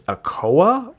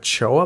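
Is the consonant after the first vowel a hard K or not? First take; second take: hard K; not K. First: The middle consonant is a hard K sound. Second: The middle consonant is not a hard K.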